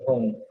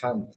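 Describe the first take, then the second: First: The syllable is said as 'hong'. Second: The syllable is said as 'han'. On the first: The speaker calls it right. "Instead of Hong" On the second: The speaker calls it wrong. "she pronounced it as Han"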